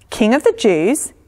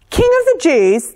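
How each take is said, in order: First: Restrained questioning repeat with a rising end; suppressed upset. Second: High, loud outraged shout; king's shout. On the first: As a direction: hold back the upset as you question it. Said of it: "trying hard not to look upset". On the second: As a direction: shout it as an affronted king. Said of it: "the king shouted". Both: A narrator's reading.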